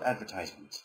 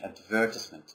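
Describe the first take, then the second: First: It is said with an American pronunciation. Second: It is said with a British pronunciation. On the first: "Americans call it advertisement" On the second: "this is the British pronunciation"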